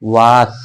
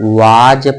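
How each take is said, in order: First: The word ends with an s sound. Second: The word ends with a z sound. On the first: The speaker calls it wrong. "ये लिखा है वास" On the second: The speaker calls it right. "वाज पढ़ते हैं"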